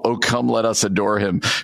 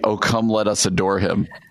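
First: It is said at normal volume. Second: It is said almost inaudibly quietly.

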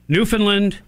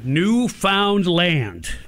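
First: The word is not pronounced the way it's spelled. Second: The word is pronounced the way it's spelled.

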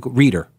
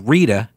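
First: The name ends with an added r sound. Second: The name ends in a plain vowel sound. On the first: "the A's become R's" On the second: "his sister's name was Rita"

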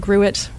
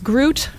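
First: The word is said to rhyme with suet. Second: The word is said to rhyme with fruit. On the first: "rhyming with suet" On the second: "rhyming with fruit"

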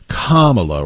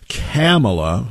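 First: The first syllable sounds like 'com'. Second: The first syllable sounds like 'cap'. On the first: The speaker calls it right. "Kamala rhymes with communist" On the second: The speaker calls it wrong. "Kamala rhymes with capitalist"

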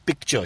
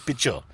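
First: The word has a clear k sound before t. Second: The word sounds like pitcher, with no k. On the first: "Aisha never says picture" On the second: "Like the beer pitcher"

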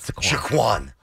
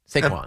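First: The stress is on the second syllable. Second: The stress is on the first syllable. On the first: The speaker calls it wrong. "Not Saquon" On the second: The speaker calls it right. "Emphasize the first syllable, yes. Trail off, show a little respect to the second"

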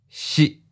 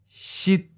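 First: The pitch is mid and cut short. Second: The pitch is high and cut short. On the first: "Mid stop. Fourth tone" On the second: "High stop. Eighth tone"

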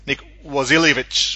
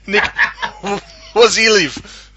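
First: The name ends with an extra ch sound. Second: The name ends without an extra ch sound. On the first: The speaker calls it wrong. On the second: The speaker calls it right.

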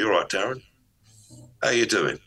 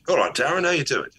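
First: The greeting sounds dominant and forceful. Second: The greeting sounds excited and welcoming. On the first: "or I can do the dominant energy" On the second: "One says I'm excited to see you, which is my chi energy"

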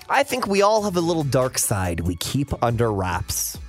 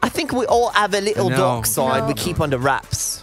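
First: It is said in the speaker's plain accent. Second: It is said in a put-on British accent.

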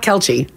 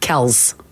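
First: The name does not end in an s sound. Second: The name ends in an s sound. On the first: The speaker calls it wrong. "It's not Kelchi" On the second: The speaker calls it right. "With an S sound at the end, not a Z"

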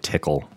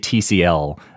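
First: The name is said as one word, tickle. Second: The name is spelled out letter by letter. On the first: The speaker calls it wrong. "I don't say tickle" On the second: The speaker calls it right. "I say TCL"

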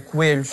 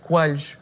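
First: The word is said without a Lisbon accent. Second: The word is said with a Lisbon accent. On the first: The speaker calls it right. "quando é coelhos" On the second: The speaker calls it wrong. "os lisboetas têm um sotaque errado quando dizem coelhos"

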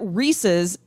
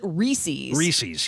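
First: It is said like Reese plus a possessive ending. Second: It is said unlike the possessive, not rhyming with pieces. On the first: "sounds like the possessive form of Reese her first name, and also rhymes with pieces" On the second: "some peanut buffs pronounce it Reese's"

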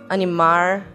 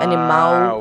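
First: The final sound is an R, São Paulo interior style. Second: The final sound is a standard L.

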